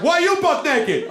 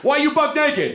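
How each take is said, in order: First: Very high, drawn-out echo; mock the question back, slow and squeaky-high; exaggerated high-pitched retort; stranger throwing it back. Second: High-pitched demanding question; high, indignant acted question; incredulous challenge. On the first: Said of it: "He was like". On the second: Confronting naked stranger.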